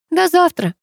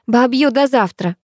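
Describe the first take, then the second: First: Half-hearted high-voiced farewell; mildly limp group response; listless reply. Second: Higher, drawn-out farewell call; lightly called-out goodbye. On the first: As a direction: answer with little enthusiasm. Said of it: "вяло отозвались девочки". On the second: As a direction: call it across to friends. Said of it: "выкрикнула подругам". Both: A narrator's reading.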